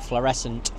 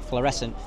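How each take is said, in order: First: Fluorescent said slowly, syllable by syllable; fluorescent, tried again with care; careful retry. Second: Fluorescent clipped short at the end; fluorescent, final attempt; second careful retry. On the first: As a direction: practise the word fluorescent carefully. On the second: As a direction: say fluorescent once more, a bit quicker. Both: Shown as a demonstration. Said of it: "I can't really say that word".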